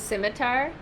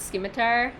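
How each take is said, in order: First: "scimitar" said SIM-i-tar; silent C in scimitar. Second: "scimitar" said SKIM-i-tar; hard C in scimitar. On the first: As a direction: start "scimitar" with a plain S. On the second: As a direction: start "scimitar" with an SK sound. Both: Shown as a demonstration. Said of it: "not scimitar".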